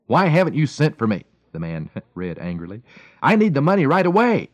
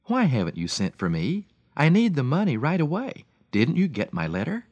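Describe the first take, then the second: First: Loud, gruff demand; gruff angry reading. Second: Gentle reading. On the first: Frustrated friend reads the wife's letter, gruff and loud. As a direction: bark the letter out like a man after a bad day. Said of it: "with a gruff voice befitting his frustrating day". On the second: Young priest reads the wife's letter, gentle and kind. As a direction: read it gently, like a caring priest. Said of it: "a man who was gentle and compassionate". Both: A narrator's reading.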